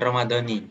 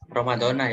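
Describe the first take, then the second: First: The word ends with an 'i' vowel. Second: The word ends with an 'a' vowel. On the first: The speaker calls it wrong. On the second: The speaker calls it right. "yang betul"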